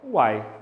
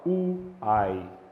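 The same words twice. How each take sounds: First: The vowels run together in one syllable. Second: The vowels are split into separate syllables. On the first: The speaker calls it right. "você fala isso de uma vez só" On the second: The speaker calls it wrong. "Você não fala uai"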